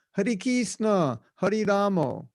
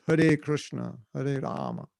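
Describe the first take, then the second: First: Slow, higher "Hare Krishna, Hare Ramo", as KEES-na and RAH-mo; raised, drawn-out Bengali-style chant words; Bengali mispronunciation. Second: "Hare Krishna, Hare Rama" with KRISH-na and a final ah; matter-of-fact correct Sanskrit "Hare Krishna, Hare Rama"; corrected pronunciation. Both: Shown as a demonstration. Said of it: "No, it's".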